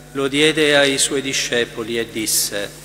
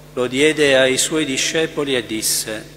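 The two takes are said the same way.

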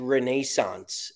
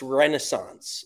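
First: The word is said with a British pronunciation. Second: The word is said with an American pronunciation. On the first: This is how the Scottish and English say it. The speaker calls it wrong. "why do they say Renaissance?" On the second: This is how the speaker says it. The speaker calls it right. "It's Renaissance"

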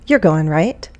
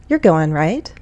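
The two takes are said the same way.

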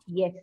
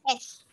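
First: The letter name starts with a y sound. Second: The letter name starts directly with the vowel. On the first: The speaker calls it wrong. "not Yes" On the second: The speaker calls it right. "it is S"

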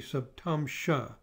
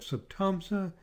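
First: The last syllable uses an sh sound. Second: The last syllable uses a plain s sound.

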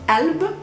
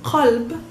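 First: The word begins with a glottal stop. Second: The word begins with a deep q sound. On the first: This is the everyday spoken form of the word. "we pronounce it just a simple glottal stop" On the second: This is the standard form of the word. "Usually it's qalb"

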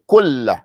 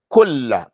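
First: The L sound is doubled and held. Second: The L sound is doubled and held.

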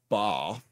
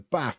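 First: The vowel is long, as in southern English. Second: The vowel is short, as in northern English. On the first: The speaker calls it wrong. "not a bath" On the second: The speaker calls it right. "There's no R in bath"

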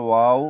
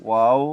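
Both takes have the same delivery.

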